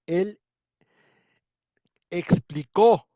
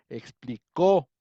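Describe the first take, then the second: First: Explicó with the last syllable punched high and loud; stress on the final O. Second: "Explicó" drawn out slowly, loud on the final O; slow stressed demo. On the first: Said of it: "Ahí está, el acento, ¿dónde va? En la O". (acento marcado en la O final de "explicó") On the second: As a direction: lean hard on the -có of "Explicó", said slowly. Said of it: "En la O". ("Explicó" lento y fuerte en la O final) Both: Shown as a demonstration.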